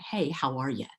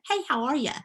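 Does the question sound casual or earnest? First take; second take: earnest; casual. First: It is said slowly and seriously as a question. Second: It is said lightly as a passing greeting. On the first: It truly asks how the person is doing. "That's the question none of us like" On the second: It is only a friendly hello. "that is my Southern greeting to you"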